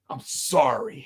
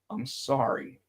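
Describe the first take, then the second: First: It is said harshly, with an angry edge. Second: It is said more quietly, in a calmer tone. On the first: "he said it with like vitriol the first time" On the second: "he calmed down a little bit more"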